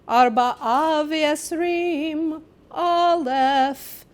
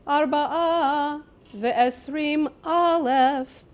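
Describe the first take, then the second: First: The words run together as one number. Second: A pause splits off the first word. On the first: The number is twenty-four thousand. The speaker calls it right. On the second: The number is twenty thousand and four. The speaker calls it wrong. "put the pause in the wrong place"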